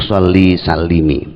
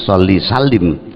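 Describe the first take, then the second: First: The last word ends with a short 'i' vowel. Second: The last word ends on a bare consonant. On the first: The speaker calls it right. "namun sholli salimi" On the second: The speaker calls it wrong. "bukan sholli salim"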